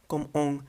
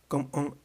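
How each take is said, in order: The two takes are said the same way.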